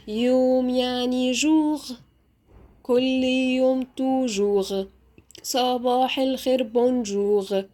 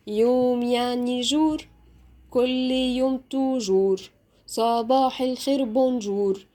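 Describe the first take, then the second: First: "جوغ" ends in a throaty gh; guttural French R. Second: "جور" ends in a tongue-tip R; rolled R. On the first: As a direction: say the final R of "جوغ" and "بونجوغ" at the back of the throat. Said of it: "وممكن أنطقها أغ". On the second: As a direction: say the final ر of "جور" and "بونجور" as a tapped Arabic r. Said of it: "وممكن أنطقها R". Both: Shown as a demonstration.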